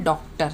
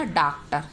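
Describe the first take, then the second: First: डॉक्टर with an open English-style o, like doctor; correct pronunciation. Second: डॉक्टर said with a flat long aa, like daaktar; wrong pronunciation. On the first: Teacher showing children the right way to say it, careful. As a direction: say डॉक्टर with the rounded ऑ vowel, not aa. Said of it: "ये सही उच्चारण आता है". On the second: Teacher showing children the wrong way to say it, mock mistake. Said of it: "otherwise ये बनेगा". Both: Shown as a demonstration.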